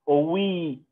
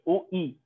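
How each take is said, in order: First: The vowels are joined by a w sound. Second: The vowels are said as separate syllables. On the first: The speaker calls it right. "بنقول" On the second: The speaker calls it wrong. "ما بنقولش او اي"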